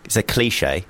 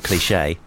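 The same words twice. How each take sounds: First: Said in the usual way. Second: The wrong version of "cliche", set against the right one; rejected pronunciation. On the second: Shown as a demonstration. Correcting himself on "cliche", rejected pronunciation. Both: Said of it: "not cliche".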